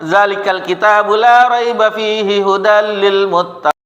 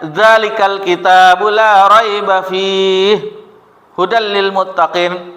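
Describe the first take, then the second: First: The phrase is recited straight through without pausing. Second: The phrase is broken by a pause partway through. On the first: "Ada yang menyambungnya" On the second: "Ada yang berhentinya"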